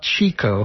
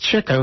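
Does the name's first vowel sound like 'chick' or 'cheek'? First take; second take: cheek; chick. First: The first vowel sounds like in 'cheek'. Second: The first vowel sounds like in 'chick'. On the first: The speaker calls it wrong. "not Chico" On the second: The speaker calls it right. "it was Chico"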